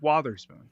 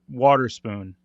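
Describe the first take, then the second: First: The middle consonant is a th sound. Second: The middle consonant is a plain t sound. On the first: The speaker calls it right. "I think it's Watherspoon" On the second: The speaker calls it wrong. "I just didn't do the T H"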